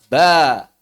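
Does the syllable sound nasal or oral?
oral. The vowel comes out through the mouth, not nasal. The speaker calls it right. "saat kita mengucapkan ba"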